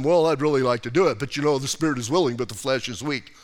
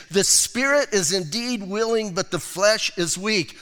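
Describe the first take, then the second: First: Fast, lower, whiny imitation of an excuse; mocking excuse-maker. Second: Said in the usual way. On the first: Preacher mocking people who excuse their weakness, whiny and fast. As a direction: rattle it off like a lame excuse. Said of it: "I hear people doing that all the time". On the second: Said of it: "That is not a verse for you to claim".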